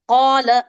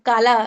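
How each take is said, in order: First: The first consonant is a thick, heavy q. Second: The first consonant is a light, plain k. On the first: The speaker calls it right. "मोटा और ऊंचा है हमारा कफ" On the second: The speaker calls it wrong. "काले के जैसा पढ़ रहे हो"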